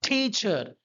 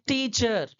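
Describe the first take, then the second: First: The t is breathy, with a puff of air. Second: The t is plain, with no puff of air. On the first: This is the English way of saying it. "ठी यानी कि ठा जैसा उच्चारण जाएगा" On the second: This is the Indian way of saying it. "हम लोग बोलते हैं"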